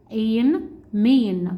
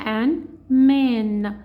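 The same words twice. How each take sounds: First: "إين، مين" slowly, as "ain, main"; long A blending. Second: "آن، مان" slowly, with the open "a" of cat; short A blending. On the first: Teacher adds the consonant for a learner, slow "إين، مين" with long A. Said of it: "في اللونج هيسمعنا النيم بتاعه". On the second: Teacher adds the consonant for a learner, slow "آن، مان" with short A. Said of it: "الكلمة هنا مان عشان شورت فاول". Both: Shown as a demonstration.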